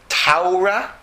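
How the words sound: The first vowel sounds like 'ow'. "if you're a German"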